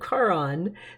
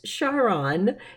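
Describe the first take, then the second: First: The name does not begin like 'Charlotte'. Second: The name begins with the sound of 'Charlotte'. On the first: It follows the old Roman mythological name. The speaker calls it wrong. "not the old Roman Charon" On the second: It honors the discoverer's wife. The speaker calls it right. "you kind of say the beginning for Charlotte"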